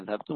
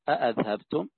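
First: The word begins with a single glottal stop. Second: The word begins with two full glottal stops. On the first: "أي بهمزة واحدة" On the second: "وبهمزتين"

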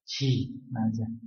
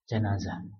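First: The first syllable has the vowel 'i'. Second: The first syllable has the vowel 'a'. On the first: It refers to the bier carrying the body. "disebut ji" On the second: It refers to the deceased person. "bisa dibaca ja"

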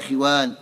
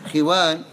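First: The first syllable has an i vowel. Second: The same.

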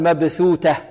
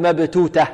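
First: The first is th, the second is t. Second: Both middle consonants are hard t sounds. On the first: "ولا نقول مبثوتة" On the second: "لا نقول مبتوتة"

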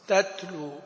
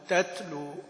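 First: The t is released with a slight puff. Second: The same.

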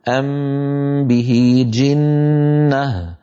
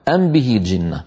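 First: The m is hidden, lips closing once. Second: The m is fully pronounced before the b. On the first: The speaker calls it right. "والمتلقى عن الأشياخ هو الإخفاء" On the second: The speaker calls it wrong. "هذا هو القول غير المختار"

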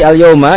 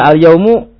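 First: The word ends with an a vowel. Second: The word ends with a u vowel. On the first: "dibacanya dengan fathah" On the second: "Kalau dibaca al-yaumu, tergantung"

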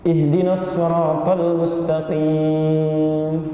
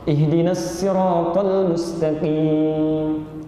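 First: The s in sirat is a heavy emphatic s. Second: The s in sirat is a light plain s. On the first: "Pakai sad" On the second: "misalnya sin"

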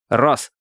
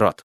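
First: The word ends with an s sound. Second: The word ends with a t sound. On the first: This is how the mother says it. The speaker calls it wrong. "Именно так. Рос" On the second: This is the standard form of the word. The speaker calls it right. "а не рот"

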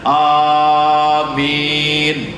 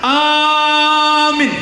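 First: Both the first and second vowels are long. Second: Only the first vowel is drawn out long. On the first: Grant it, O God. "A-nya panjang, Mi-nya panjang. Itu yang mantap" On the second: Believe it. "Kalau A-nya panjang"

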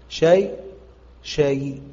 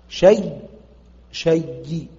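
The two takes are said the same way.

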